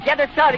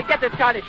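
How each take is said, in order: First: Loud urgent call to the engineer. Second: Said in the usual way. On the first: Real, not acted. Urging engineer during disaster.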